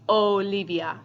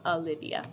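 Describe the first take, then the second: First: The first vowel is a pure Spanish o. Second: The first vowel is an English-style o. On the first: This is how a Spanish speaker would say it. "My name would be" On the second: This is how an English speaker would say it. "instead of"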